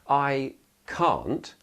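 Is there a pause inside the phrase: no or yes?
no. It is contracted with no gap before not. The speaker calls it wrong. "rather than saying I can't"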